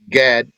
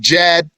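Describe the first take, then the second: First: The name begins with a hard G sound. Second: The name begins with a J sound. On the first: This is the English form of the name. "G A D" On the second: This is the Arabic form of the name. "But in Arabic"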